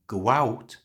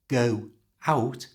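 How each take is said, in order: First: The words are joined by a little w sound. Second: The two words are said separately, without linking. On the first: "joined with a little w sound" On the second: "instead of go out"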